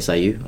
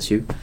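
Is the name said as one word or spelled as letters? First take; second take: spelled letters; one word. First: The name is spelled out as separate letters. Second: The name is said as one syllable, 'Sue'. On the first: The speaker calls it right. "It's SIU" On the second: The speaker calls it wrong. "I shouldn't say Sue"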